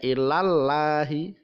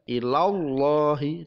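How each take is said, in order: First: Ilallahi with a thin, light Allah. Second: Ilallahi with a thick, heavy Allah. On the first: Teacher showing the wrong thin ilallahi. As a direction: say ilallahi with no tafkhim. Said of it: "Tidak ilallahi". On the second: Teacher showing the right heavy ilallahi. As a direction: ilallahi with full tafkhim on Allah. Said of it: "dibaca tebal". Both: Shown as a demonstration.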